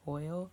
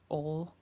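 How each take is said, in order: First: The word is said with an 'oy' vowel. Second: The word is said with an 'oh' vowel. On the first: "how I say oil" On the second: "she says ol"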